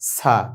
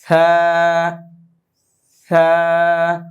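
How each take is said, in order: First: It starts with a plain s, tongue away from the teeth. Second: It starts with a soft th, tongue against the teeth. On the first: The speaker calls it wrong. "যদি জিব্বার আগা দাঁতের আগায় না লাগান তাহলে সা হয়ে যাবে" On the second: The speaker calls it right. "জিব্বার আগা এবং দাঁতের আগা নরম করে আওয়াজ করতে হবে"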